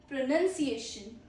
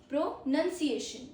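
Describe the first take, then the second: No difference in how they are said.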